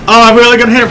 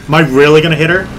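First: Loud, high burst of alarmed excitement; higher, louder, thrilled outcry; excited realisation. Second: Said in the usual way. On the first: Real, not acted. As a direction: exclaim as the crash becomes certain. Realises crash is coming.

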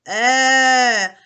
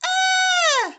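First: "е" low and loud like a bear. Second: "е" sung very high, like a mouse; high squeak. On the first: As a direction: bellow a low "е". (низьке голосне «е») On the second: (високе «е», як пищить мишенятко) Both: Shown as a demonstration. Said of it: "Високо, низько".

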